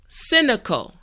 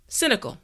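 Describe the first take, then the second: First: The word is said slowly and carefully. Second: The word is said at normal speed. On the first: "repeat after me" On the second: "now let's say it at a normal pace"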